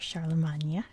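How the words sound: The name is pronounced the French way.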